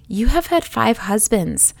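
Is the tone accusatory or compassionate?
compassionate. It sounds warm and inviting.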